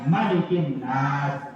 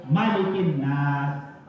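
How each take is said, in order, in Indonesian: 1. Vokal pertama dari malikin tetap dibaca pendek. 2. Vokal pertama dari malikin tetap dibaca pendek.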